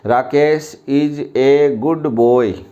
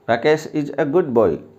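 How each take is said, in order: First: The article is said as a full 'ay'. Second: The article is said as a weak 'uh'. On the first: The speaker calls it wrong. "मैं एक बार और गलत पढ़ कर बताऊं आपको" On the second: The speaker calls it right. "तो इसको सही ढंग से कैसे पढ़ें?"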